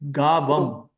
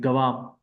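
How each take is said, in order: First: The stress is on the first syllable. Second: The stress is on the second syllable. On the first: The speaker calls it wrong. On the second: The speaker calls it right. "the second A in this word has a bar over it"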